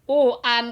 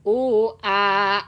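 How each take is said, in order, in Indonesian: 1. Kata ini berakhir dengan bunyi n yang jelas. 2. Kata ini berakhir dengan vokal panjang tanpa n. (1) "u an itu kan idhar. Jadi jelas suara n-nya" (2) "jadi panjang dua harakat karena tanwin dibuang, diganti ku alif"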